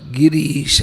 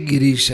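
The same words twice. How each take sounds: First: The vowel after the r is long. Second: The vowel after the r is short. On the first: It means the lord of speech. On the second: It means the one who lies on the mountain.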